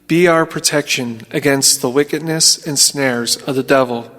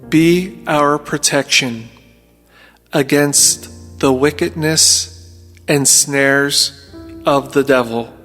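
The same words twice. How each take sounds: First: It is spoken at a normal pace. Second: It is spoken slowly.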